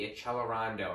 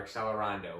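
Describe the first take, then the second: First: "accelerando" with a CH sound, ah-CHEL-eh-RAHN-doh; Italian-style pronunciation. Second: "accelerando" with a KS sound, ak-SEL-eh-RAHN-doh; English-style "x" sound in "accelerando"; anglicized pronunciation. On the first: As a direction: say the c's in "accelerando" as "ch". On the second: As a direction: say the c's in "accelerando" as "ks". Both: Shown as a demonstration. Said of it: "whichever way you'd like to pronounce that".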